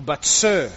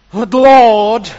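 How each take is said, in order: First: Said in the usual way. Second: Loud, higher "But Lord" in alarm; protesting Gideon. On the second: Acted. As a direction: burst out with "Lord". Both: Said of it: "is better there".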